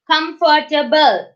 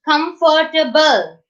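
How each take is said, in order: First: The word ends on an l sound. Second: The same.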